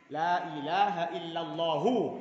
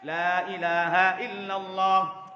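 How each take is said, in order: First: The final vowel after the last h is pronounced. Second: The phrase stops on the h with no vowel. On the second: "Kalau dimatikan"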